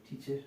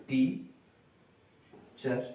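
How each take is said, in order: First: Said in the usual way. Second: টিচার broken as টি, long pause, চার; split into syllables. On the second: Shown as a demonstration. Teacher showing two syllables, টি and চার said apart. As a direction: say টি and চার as two separate beats. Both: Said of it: "টিচারকে সেরকম কিরকম?".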